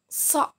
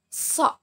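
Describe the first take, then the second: The two takes are said the same way.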